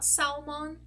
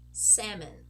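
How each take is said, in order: First: The L sound is pronounced in the word. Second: The L sound is silent in the word. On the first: The speaker calls it wrong. "Not salmon" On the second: The speaker calls it right. "this is actually pronounced salmon"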